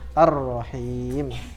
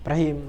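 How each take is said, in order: First: The final vowel is held long and slow. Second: The final vowel is rushed and cut short. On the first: The speaker calls it right. "Dibaca panjang" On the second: The speaker calls it wrong. "Kalau orang yang buru-buru"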